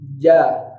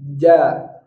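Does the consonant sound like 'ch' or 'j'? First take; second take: j; j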